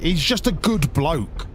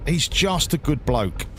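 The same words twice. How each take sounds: First: Drawn out and deliberate, lingering on each word; slow it down to really mean it; slow emphatic praise. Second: Said in the usual way. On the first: Real, not acted. Streamer praising Doctor Benji to chat, slow and sincere.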